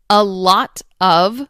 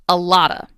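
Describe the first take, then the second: First: The word 'of' is pronounced in full. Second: The word 'of' is reduced to 'uh'.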